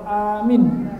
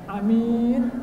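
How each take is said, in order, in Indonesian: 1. Vokal pertama panjang, yang kedua pendek. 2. Kedua vokal diucapkan pendek.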